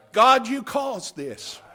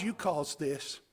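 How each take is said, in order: First: "God, you caused this" loud and slow, every word weighted; emphatic declaration. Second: Said in the usual way. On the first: Acted. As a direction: lean hard on "God" and draw out "caused this". Repeated louder, slower.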